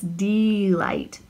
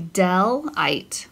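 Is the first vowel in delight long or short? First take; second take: long; short. First: The first vowel is a long E sound. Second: The first vowel is a short E sound. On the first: The speaker calls it right. "What is the long sound of E? ... So that's delight" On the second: The speaker calls it wrong. "For it to be a short E, it would have to be a closed syllable, and it would be delight"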